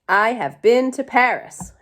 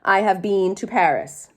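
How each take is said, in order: First: 'Been' is said with a short vowel, like 'bin'. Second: 'Been' is said with a long vowel, like 'bean'. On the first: "So the word is bin" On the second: "Some people might pronounce that word bean"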